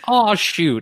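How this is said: It is said in a dismayed, disappointed tone. "by the inflection of my voice, you can probably tell that it's not a"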